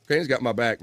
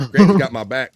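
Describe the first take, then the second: First: Said in the usual way. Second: Louder, punchy shout-out to Granny; loud cheer. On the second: Real, not acted. Host cheering Granny's support in the chat, loud shout. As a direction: belt out Granny's got my back.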